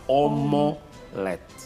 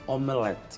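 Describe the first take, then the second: First: The second vowel sounds like o. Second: The second vowel sounds like e. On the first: The speaker calls it wrong. "e não omolete" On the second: The speaker calls it right. "a Iracelma gosta de omelete"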